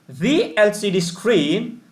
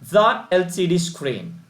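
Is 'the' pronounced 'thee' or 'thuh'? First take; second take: thee; thuh. First: 'The' is said with a long 'ee' vowel. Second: 'The' is said with a short 'uh' vowel. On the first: The speaker calls it right. "why the L C D screen?" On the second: The speaker calls it wrong. "Why not the L C D screen?"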